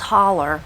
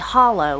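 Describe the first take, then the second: First: The word ends with an 'er' sound. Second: The word ends with an 'oh' sound. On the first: The speaker calls it wrong. "put that R sound on the end" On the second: The speaker calls it right. "It should be O W at the end instead of the E R"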